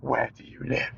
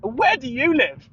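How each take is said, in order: First: Low, softer, threatening "Where do you live?"; menacing question. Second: Higher, slow breezy "Where do you live?"; cheery echo. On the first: Irate sales guy menacing the caller, low and quiet. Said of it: "he starts getting irate". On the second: Throwing the caller's question back, higher and breezy. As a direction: toss it back sweetly and slowly. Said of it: "And I go". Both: Retold or imitated.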